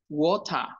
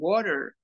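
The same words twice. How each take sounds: First: It is said in a British accent. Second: It is said in an American accent. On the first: "dicen water" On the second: "los ingleses no dicen water"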